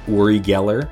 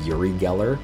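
First: The name is said in its original pronunciation. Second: The name is said in an anglicized pronunciation. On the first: This is how the man himself says his name. "he will always say Uri Geller" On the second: This is how Western people say his name. "Western people call him Uri Geller"

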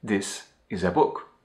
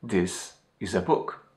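Both takes have the same delivery.

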